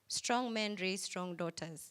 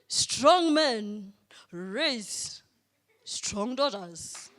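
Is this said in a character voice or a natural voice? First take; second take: natural; character. First: It is said in a natural speaking voice. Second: It is said in a put-on character voice.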